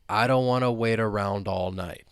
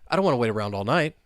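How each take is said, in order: First: The sentence is spoken slowly. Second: The sentence is spoken very fast. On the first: "let's say it slowly to begin with" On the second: "let's try and say it, well, super fast"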